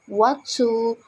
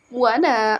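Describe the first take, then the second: First: Both words are said fully and separately. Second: The words blend into one reduced word.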